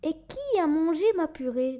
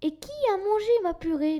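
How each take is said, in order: First: It is said in a medium mama bear voice. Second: It is said in a small baby bear voice.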